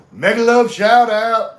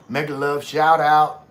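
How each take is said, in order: First: Big high shout from the chest; emphatic, from the chest. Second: Said in the usual way. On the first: Shown as a demonstration. Showing Nads how to do a shout-out, emphatic chest shout. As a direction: belt it out loud with full emphasis. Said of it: "Gotta say it from your chest". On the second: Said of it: "put some emphasis in".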